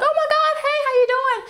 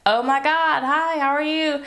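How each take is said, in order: First: It sounds bubbly and naturally friendly. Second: It sounds put-on and forced.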